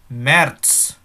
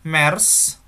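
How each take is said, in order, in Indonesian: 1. Kata itu diakhiri dengan bunyi ts. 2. Kata itu diakhiri dengan bunyi s biasa. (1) "ada kayak tt-nya gitu, jadi bacanya März" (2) "bukan Mers, nein"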